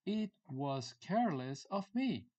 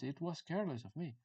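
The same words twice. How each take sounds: First: Higher, slowed-down teaching delivery; deliberate, raised-pitch example sentence; slow model phrase. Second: Said in the usual way. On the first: Shown as a demonstration. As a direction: space out "It was careless of me" for learners.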